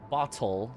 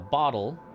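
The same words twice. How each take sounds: First: The middle consonant is a crisp T. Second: The middle consonant sounds like a soft D. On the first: The speaker calls it wrong. "sounds a little forced" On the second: The speaker calls it right. "more of a D sound than a T sound"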